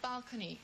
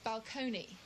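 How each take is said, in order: First: The word is pronounced in the ordinary way. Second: The word is pronounced in an affected way. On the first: This is how people normally said it. "instead of saying balcony" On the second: This marks the speaker as part of an exclusive group. "it was so affected"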